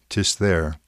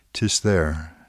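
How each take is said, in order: Both takes have the same delivery.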